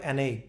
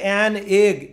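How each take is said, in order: First: The two words are linked like one word. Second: The two words are said separately. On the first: The speaker calls it right. "আপনাকে বলতে হবে অ্যান এগ। ... একসাথে, মানে এটা একটা শব্দের মতো" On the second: The speaker calls it wrong. "এটা কিন্তু এরকম উচ্চারণ নয়"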